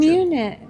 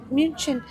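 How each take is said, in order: First: Said in the usual way. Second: München said the German way, MUEN-shen; German pronunciation. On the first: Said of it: "It says München". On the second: Shown as a demonstration. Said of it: "established is how they say Munich in Germany".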